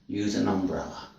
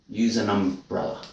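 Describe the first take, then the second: Both takes have the same delivery.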